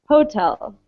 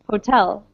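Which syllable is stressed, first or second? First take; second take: first; second. First: The stress is on the first syllable. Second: The stress is on the second syllable. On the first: The speaker calls it wrong. "If we put the stress on the first syllable, it would sound like hotel" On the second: The speaker calls it right. "but we say hotel"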